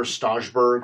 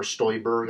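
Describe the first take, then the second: First: First guess at the surname, "Stajberg" with "ah", not "oy"; unsure name pronunciation. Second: Second guess at the surname, "Stoiberg" with "oy", not "ah"; alternative name pronunciation. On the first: Commentator trying out a politician's surname, "Stajberg" said with "ah". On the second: Commentator offering another guess at a politician's surname, "Stoiberg" said with "oy". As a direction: say "Stoiberg" with an "oy" in the first syllable. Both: Shown as a demonstration. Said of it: "don't know the pronunciation".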